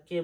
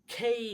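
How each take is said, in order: First: Said in the usual way. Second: "খেই" with a puff on kh and an ay-ee glide; aspirated K. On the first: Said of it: "আজ থেকে আর কে বলবো না". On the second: Shown as a demonstration. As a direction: open "খেই" with breathy kh, glide to i. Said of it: "আর কে বলবো না". ("খেই" বাতাস দিয়ে, শেষে ই)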